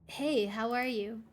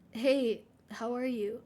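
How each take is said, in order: First: It is said in a normal voice. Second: It is said in a tearful voice.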